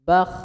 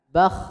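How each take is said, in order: The two takes are said the same way.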